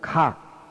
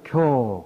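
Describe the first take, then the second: First: The syllable is pronounced gak. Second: The syllable is pronounced gyo. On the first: It means to awaken or realize. "깨닫는다 그러면 각" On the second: It means to wake from a dream. "꿈 깬다 그러면 교"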